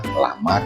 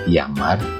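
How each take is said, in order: First: The first sound is a plain L. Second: The first sound is a Y. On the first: The speaker calls it wrong. "jangan dibaca" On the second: The speaker calls it right. "Itu adalah"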